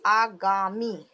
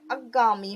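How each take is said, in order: First: Said in the usual way. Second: अगामी with the first vowel short, a-GAA-mee; अगामी with a short opening vowel. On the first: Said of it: "शुद्ध जैसे हम लिखते हैं". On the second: Shown as a demonstration. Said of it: "आ में की मात्रा लगाते ही नहीं".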